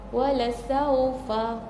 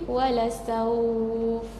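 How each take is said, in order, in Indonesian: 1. Kata ini berakhir dengan vokal pendek. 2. Kata ini berakhir pada suku kata yang dipanjangkan, tanpa vokal.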